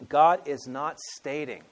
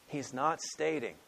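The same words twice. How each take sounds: First: GOD drawn out slow and loud; slow stress on God. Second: Slow, land on NOT; stress on NOT. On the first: Preacher correcting a reading, God stressed. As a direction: lean hard and slow on GOD. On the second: Preacher restating the point, stress on not. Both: Shown as a demonstration.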